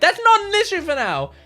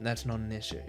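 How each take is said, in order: First: The line is said in an agitated way. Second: The line is said in a calm way.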